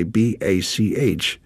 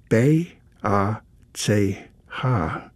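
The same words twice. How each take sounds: First: B A C H spelt out as English bee, ay, see, aitch; English letter names. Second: B A C H spelt out slowly as German bay, ah, tsay, hah; German letter names. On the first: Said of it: "in English letters, we say". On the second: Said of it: "In the German pronunciation, it's pronounced". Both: Shown as a demonstration.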